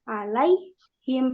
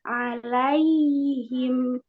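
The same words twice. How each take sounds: First: The y sound is cut off abruptly. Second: The y sound flows on into the h. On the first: The speaker calls it wrong. "jangan alaihim. Nah, kalau gitu kan kepotong ya" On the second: The speaker calls it right. "harus dialirkan sampai ketemu huruf setelahnya"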